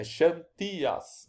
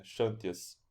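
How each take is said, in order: First: "Xantias" stressed on the middle syllable, slow, as in Greek. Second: "Xantias" stressed on the first syllable, as in Portuguese. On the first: Teacher contrasting with Greek, Greek stress. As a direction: stretch out "Xantias" with the accent on TI. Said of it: "Sendo que em grego". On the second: Teacher showing the Portuguese habit, Portuguese stress. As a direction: say "Xantias" with the Portuguese accent on XAN. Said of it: "é assim que a gente faz em português". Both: Shown as a demonstration.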